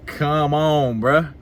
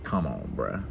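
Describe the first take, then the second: First: Higher and louder, calling it out; loud, incredulous protest; exasperated come on. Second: Much lower and softer, under the breath; quiet, low disbelief at her; exasperated come on. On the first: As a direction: raise it up, you can't believe it. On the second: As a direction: say it low to yourself, fed up. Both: Retold or imitated. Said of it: "And it's like".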